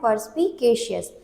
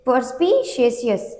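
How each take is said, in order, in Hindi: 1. बीच का अक्षर साफ़ k की आवाज़ वाला है। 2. बीच का अक्षर s जैसी आवाज़ वाला है, k नहीं। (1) "यहाँ पे के लिखा है, इसका मतलब हमें इसे कैसे पढ़ना है" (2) "इसको लोग पढ़ देते हैं"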